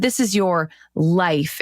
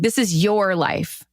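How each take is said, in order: First: The stress is on "life". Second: The stress is on "your".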